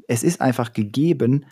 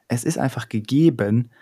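Both takes have the same delivery.

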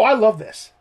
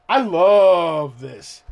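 First: Said in the usual way. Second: Slow, relishing repeat; slow savouring. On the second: Real, not acted. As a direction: stretch every word like tasting it.

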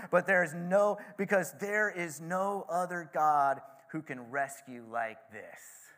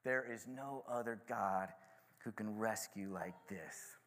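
First: Proclaiming. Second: Soft, slow, lower reverent repeat; savoured quietly. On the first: Retold or imitated. King ending his decree, proclaimed loudly. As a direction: announce it like a royal decree. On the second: Shown as a demonstration. Speaker repeating the king's phrase, quiet awe. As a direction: linger over the phrase in awe. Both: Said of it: "I love that last phrase".

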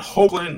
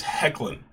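First: Hoechlin said as HOKE-lin; first syllable of Hoechlin rhymes with oak; mispronounced name. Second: Hoechlin said as HECK-lin; first syllable of Hoechlin rhymes with deck; correct name pronunciation. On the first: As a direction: say Hoechlin with long O and hard K. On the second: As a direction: say Hoechlin with a short "heck" start. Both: Shown as a demonstration. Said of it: "not Hoechlin".

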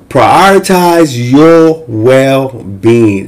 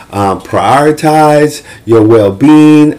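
First: Very slow, punching "Prioritize" with a falling tune; stress on prioritize. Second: Slow, leaning on "well-being"; stress on well-being. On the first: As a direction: hammer "Prioritize" word by word. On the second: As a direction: press the word "well-being" gently. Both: Shown as a demonstration. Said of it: "And so set your boundaries".

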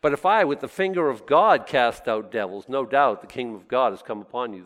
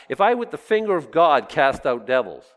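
First: Said in the usual way. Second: "If I with the finger of God cast out devils" reread louder, with weight on "I"; louder second reading of the verse; stressed reread. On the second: Shown as a demonstration. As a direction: lean on the words for the congregation. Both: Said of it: "Do you say what I just said".

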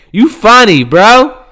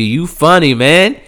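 First: Loud taunt. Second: Said in the usual way. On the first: Real, not acted. Taunting Donald louder.

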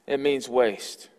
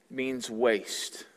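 First: "It means waste" said slowly, each word weighed; slow emphasis. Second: Said in the usual way. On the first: Shown as a demonstration. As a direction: let "It means waste" land slowly and firmly.

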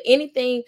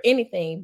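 First: Anything pushed higher and louder; stress on anything. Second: Said in the usual way. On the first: Real, not acted. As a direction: punch the word anything. Emphatic repeat of anything.

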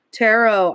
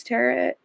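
First: TAROT said again as a correction, ending in OH; self-corrected, silent T. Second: TAROT slipped out rhyming with carrot; slip with final T. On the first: Correcting own slip on tarot, silent final T. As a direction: correct tarot to rhyme with sparrow. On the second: Someone who does tarot, mispronouncing it like carrot. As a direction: say tarot with a short second vowel and a T-like ending. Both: Real, not acted. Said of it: "I keep saying tarot".

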